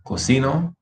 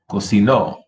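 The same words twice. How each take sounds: First: Cocino stressed on CI, lifting at the end; stress on middle syllable. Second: Cocinó stressed on the final NÓ; stress on last syllable. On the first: Teacher contrasting present with past, middle stress on Cocino. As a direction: lean on CI of Cocino with rising pitch. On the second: Teacher contrasting past with present, final stress on cocinó. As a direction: land firmly on the end of cocinó. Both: Shown as a demonstration. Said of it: "Listen to the difference".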